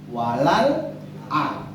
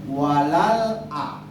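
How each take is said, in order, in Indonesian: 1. Jeda memisahkan bunyi 'a' terakhir. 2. Jeda memisahkan bunyi 'a' terakhir.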